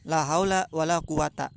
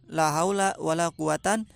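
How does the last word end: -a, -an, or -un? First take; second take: -a; -an. First: The last word ends in a short -a. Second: The last word ends in the sound -an. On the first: "boleh dibaca patah" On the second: "boleh dibaca nasab"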